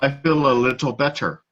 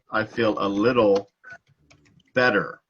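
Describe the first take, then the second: First: The t sounds are pronounced crisply and fully. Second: The t sounds are softened into quick taps. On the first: The speaker calls it wrong. "that sounds terrible. That does not sound natural at all" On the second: The speaker calls it right. "we soften a lot of things"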